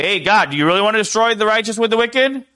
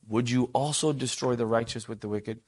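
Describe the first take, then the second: First: Higher, louder, faster brash challenge; mock disrespectful outburst; brash, disrespectful demand. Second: Softer, intimate plea to God; quiet respectful question; close, hushed ask. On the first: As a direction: fire it at God like a complaint. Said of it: "You're not gonna say". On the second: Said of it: "draws near to the Lord to say". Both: Shown as a demonstration.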